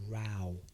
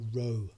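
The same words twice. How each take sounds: First: The vowel sounds like the one in 'cow'. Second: The vowel sounds like the one in 'go'. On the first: An argument between people. "but also it can be pronounced as a row" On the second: Moving a boat with oars. "We've got R now"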